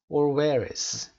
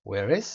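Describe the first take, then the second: First: "where is" linked into one word, where's, louder; run together. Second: "where is" as two words, "is" distinct; separate words. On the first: Teacher shows students the contraction, run together. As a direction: join "where is" in one go, no gap. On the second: Teacher shows the uncontracted form, separate words. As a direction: keep "where" and "is" apart. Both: Shown as a demonstration. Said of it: "یه سره".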